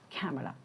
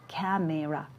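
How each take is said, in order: First: The middle vowel is reduced or dropped. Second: The middle vowel is full and clear. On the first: The speaker calls it right. "its real pronunciation will be like camera" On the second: The speaker calls it wrong. "seems as if we pronounce it like camera"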